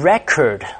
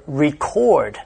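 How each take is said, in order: First: "record" stressed on the first syllable, REC-ord; noun stress. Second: "record" stressed on the second syllable, re-CORD; verb stress. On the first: Teacher gives learners the noun form, "record" with first-syllable stress. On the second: Teacher gives learners the verb form, "record" with second-syllable stress. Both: Shown as a demonstration. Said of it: "stress shifts from the second syllable to the first".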